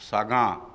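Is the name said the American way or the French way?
French. The name is said as Sa-gaan, nasal ending. The original form of the name is kept. "एन pronounce नहीं होता French में"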